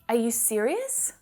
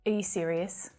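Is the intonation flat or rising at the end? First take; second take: rising; flat. First: The pitch rises at the end. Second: The pitch stays flat at the end. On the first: The speaker genuinely wants to know the answer. The speaker calls it wrong. "With that upward intonation, this sounds like I want to know the answer" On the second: The speaker is unimpressed and not really asking. The speaker calls it right. "your tone should be much flatter"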